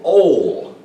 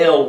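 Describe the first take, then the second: First: The syllable has an o vowel sound. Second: The syllable has an e vowel sound. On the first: "with an O sound" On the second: "with the e sound"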